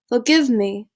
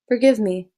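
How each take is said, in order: First: It is said in a put-on British accent. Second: It is said in the speaker's normal accent. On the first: "now I will try to do it in a British accent" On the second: "Here's normal"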